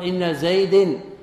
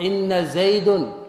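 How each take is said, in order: First: The noun ends with an i vowel. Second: The noun ends with a u vowel. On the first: "بالخفض" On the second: "بالرفع"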